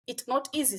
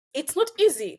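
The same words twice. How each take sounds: First: Said in the usual way. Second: "not" pushed high and loud, falling to "easy"; stress on not. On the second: Real, not acted. Host telling students it's hard, "not" stressed.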